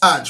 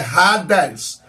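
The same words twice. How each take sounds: First: The word is said with Portuguese pronunciation. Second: The word is said with Greek pronunciation. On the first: "a gente fala no português" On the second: "no grego é"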